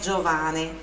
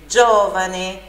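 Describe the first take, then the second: First: The stress is on the second syllable. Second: The stress is on the first syllable. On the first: The speaker calls it wrong. "não é Giovane" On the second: The speaker calls it right. "sílaba forte ali no O"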